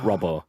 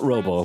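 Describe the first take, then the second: First: The first vowel sounds like in 'rob'. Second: The first vowel sounds like in 'robe'. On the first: The speaker calls it wrong. "but Robbo" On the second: The speaker calls it right. "Not not Robo"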